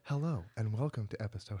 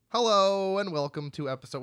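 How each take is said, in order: First: It is said quietly. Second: It is said loudly.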